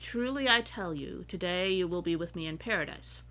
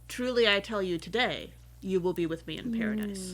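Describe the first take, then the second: First: The pause comes before the word today. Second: The pause comes after the word today. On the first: They will be in paradise today. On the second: The promise is made today; paradise may come later.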